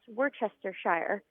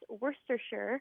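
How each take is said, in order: First: The ending is a full 'shire' sound. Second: The ending is reduced, not a full 'shire'. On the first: The speaker calls it wrong. "he always says that it's pronounced Worcestershire" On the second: The speaker calls it right. "I say it's pronounced Worcestershire"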